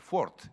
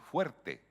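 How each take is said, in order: First: The word has a single 'o' vowel. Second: The word has the diphthong 'ue'. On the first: A possible medieval pronunciation that rhymes. "el diptongo podría ser fort" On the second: The modern pronunciation. "dices fuerte"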